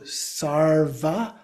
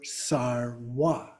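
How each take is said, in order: First: The middle consonant is a v sound. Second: The middle consonant is a w sound. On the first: "a V that's often pronounced as a W" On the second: "pronounced as a W"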